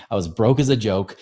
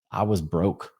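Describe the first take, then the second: First: Louder, punched rhyme on broke as a joke; emphatic punchline. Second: Said in the usual way. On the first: Real, not acted. Podcaster hammering home how broke he was, loud and emphatic. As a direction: land the rhyme hard for the laugh.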